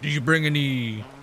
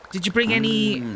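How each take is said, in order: First: It is said in a deeper voice. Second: It is said in a normal voice.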